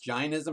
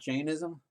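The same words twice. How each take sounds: First: The first vowel sounds like 'eye'. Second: The first vowel sounds like 'day'. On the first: This is the older Sanskrit-based pronunciation. "You you pronounced it just now as Jainism" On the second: This is the modern Hindi-based pronunciation. "So what have I been pronouncing it wrong?"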